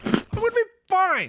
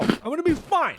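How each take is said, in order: First: Higher, panicked self-reassurance; more scared, voice climbing; panicky. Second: Nervous. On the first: Repeated, even higher and more panicked. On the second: Nervous self-reassurance, rising pitch. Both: Acted.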